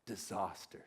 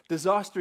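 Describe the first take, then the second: First: Low, hushed dismay; a quiet, dropped disaster; stunned murmur. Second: Louder, higher alarm; mock panic, raised pitch; alarmed cry. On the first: Acted. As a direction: let it sink in quietly. Dead bunny found, stunned. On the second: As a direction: sound the alarm on disaster. Repeats word with alarm.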